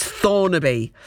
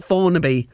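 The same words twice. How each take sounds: First: "Thornaby" with a clear th at the start, not an f. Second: "Thornaby" as "Fornaby", with an f sound at the start instead of th. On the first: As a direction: say "Thornaby" carefully, tongue between the teeth for th. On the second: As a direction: say "Thornaby" the lazy way, opening on f. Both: Retold or imitated. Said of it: "change, uh, T H, a th, into a f".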